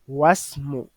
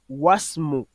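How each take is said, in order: First: The i is dropped, linking into wasmu. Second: The same.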